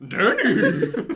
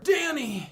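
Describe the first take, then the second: First: It is said in a horse-like voice. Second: It is said in a normal voice.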